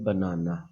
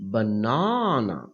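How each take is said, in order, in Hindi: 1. कोई अक्षर ज़ोर से नहीं बोला जाता; सब बराबर बोला जाता है। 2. एक अक्षर पर साफ़ ज़ोर है। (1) "ये स्ट्रेस नहीं है" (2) "हम कहेंगे बनाना"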